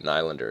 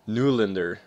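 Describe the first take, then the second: First: The first syllable sounds like 'nigh'. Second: The first syllable sounds like 'new'. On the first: The speaker calls it wrong. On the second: The speaker calls it right.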